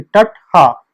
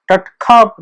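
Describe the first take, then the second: First: टट हा with the हा sound between kha and ha; correct sound. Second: टट खा with a plain aspirated kh, shown as the mistake; wrong sound. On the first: Teacher showing students the right Kurukh sound, careful demo. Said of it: "खा और हा के बीच में हा". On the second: Teacher showing students the wrong Kurukh sound, contrasting demo. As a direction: say खा as a clear kha, the version to avoid. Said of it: "टट खा नहीं". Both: Shown as a demonstration.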